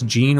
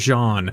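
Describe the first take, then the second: First: The name is said the English way. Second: The name is said the French way.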